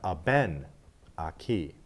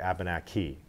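First: The stress falls on the second syllable. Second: The stress falls on the third syllable. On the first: This follows the pattern of the language itself. "if I go back three, we have Abenaki. So this emphasis is on ben" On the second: This is the English way of saying it. "In English, we often stress the end"

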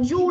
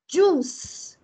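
First: The word ends without a final s sound. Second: The word ends with a clear s sound. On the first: The speaker calls it wrong. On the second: The speaker calls it right.

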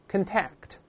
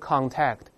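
First: The first syllable is weak, like kin. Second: The first syllable is stressed and full. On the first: It is used as a verb. The speaker calls it right. "做动词这么读contact，轻读是kin 的音" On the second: It is used as a noun. The speaker calls it wrong. "不要读contact"

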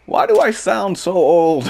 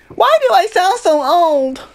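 First: It is said in his normal adult voice. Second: It is said in a little kid voice.

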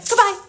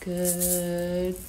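First: It is said fast. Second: It is said slowly.

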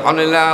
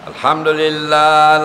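First: It is said fast. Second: It is said slowly.

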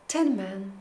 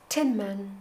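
The two takes are said the same way.

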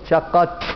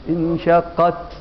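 First: The final t has a strong sneeze-like hissing burst. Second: The final t has a faint breathy release. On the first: The speaker calls it wrong. "مش عايزين العطسة اللي في التاء دي، انشقت ما ينفعش" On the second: The speaker calls it right. "اما تقول انشقت تسمع نفسك بس، انشقت انشقت ده اقصى"

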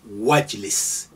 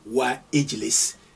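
First: The 'i' vowel is dropped, linking into 'wajlis'. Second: The 'i' vowel before 'jlis' is pronounced separately. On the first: The speaker calls it right. "you say wajlis. ... it's suppressed. You don't hear it" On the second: The speaker calls it wrong. "You don't say wa ijlis"

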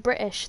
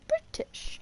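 First: The middle T is dropped or glottalized. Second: The middle T is clearly pronounced. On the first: This is not how southern people say it. "people from the south wouldn't even say British" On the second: This is how southern people say it. "They pronounce the T's a lot, like, properly"

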